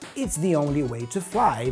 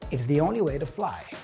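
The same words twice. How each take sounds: First: The word 'to' is said with a full vowel. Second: The word 'to' is reduced to a flapped schwa.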